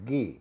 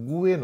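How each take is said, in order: First: A plain 'g' sound with no 'w'. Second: A 'w' sound follows the 'g'. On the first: The speaker calls it right. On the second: The speaker calls it wrong.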